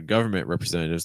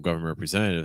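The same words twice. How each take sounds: First: The stress falls on the word government. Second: The stress falls on the word representatives. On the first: "I personally would stress government" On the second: "if I'm using your stress on representatives"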